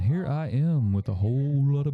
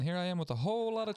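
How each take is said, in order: First: The voice has heavy low bass frequencies. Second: The voice has heavy high treble frequencies. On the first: "here I am with a whole lot of bass in my voice" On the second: "here I am with a whole lot of treble"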